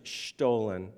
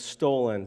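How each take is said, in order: First: The word is said with a German pronunciation. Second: The word is said with an American English pronunciation. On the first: This is the original way to say it. The speaker calls it right. "but it's actually stolen" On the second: This is how people locally say it. The speaker calls it wrong. "in our pronunciation is stolen"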